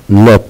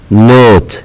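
First: نوت with a short "o", like "not". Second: نوت with a long "oh", like "note"; long o name sound. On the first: Teacher showing the letter's sound, short o. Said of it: "صوت الحرف". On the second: Teacher showing the letter's name, long o. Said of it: "اسم الحرف". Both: Shown as a demonstration.

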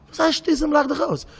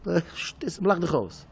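First: Very high, incredulous echo; indignant echo. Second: Said in the usual way. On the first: Acted. Hurt man repeating the brush-off, high indignant protest. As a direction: throw the words back in a high, offended voice.

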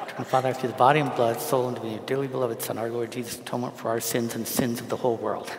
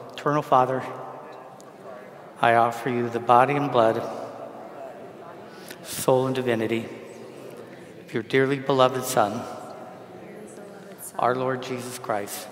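First: Memorised prayer rattled off without pauses; fast recitation. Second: Projected prayer in separate phrases with long pauses; slow recitation. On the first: Priest reciting from memory so he won't lose it, rapid-fire. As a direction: run the phrases together in a quick rote stream. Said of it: "if I don't say it fast". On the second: Priest leading congregation to repeat the prayer, slow and deliberate. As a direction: lead it slowly, phrase by measured phrase. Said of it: "when I say it slowly". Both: Shown as a demonstration.

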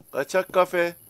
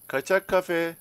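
No difference in how they are said.

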